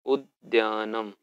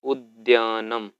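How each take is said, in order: First: उद्यानम repeated slowly at a calmer level; softer repeat. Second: उद्यानम said slowly and louder, every syllable clear; first strong model of उद्यानम; emphatic model word. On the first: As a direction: say उद्यानम again, slow and gentler. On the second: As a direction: pronounce उद्यानम loud and drawn out. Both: Shown as a demonstration. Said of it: "पदानि उच्चार्यत".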